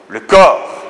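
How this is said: It is said with strong, heartfelt force. It refers to something real and powerful. The speaker calls it right. "On dit quelque chose de fort"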